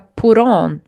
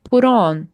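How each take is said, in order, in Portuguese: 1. O t vira um flap e se liga ao on. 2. O t vira um flap e se liga ao on.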